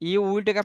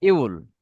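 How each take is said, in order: First: Two separate full words are said. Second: The words merge into one short syllable. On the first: "ইউ উইলটাকে আপনি কি বলতে পারেন সংক্ষেপে" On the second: "সংক্ষেপে বলেন তো ইউল"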